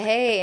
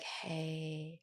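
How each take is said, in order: First: Nice voice. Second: Much softer, gentle hey; hushed, soothing greeting to a stressed partner. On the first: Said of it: "No, it's a nice voice". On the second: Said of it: "you come in with that voice". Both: Retold or imitated.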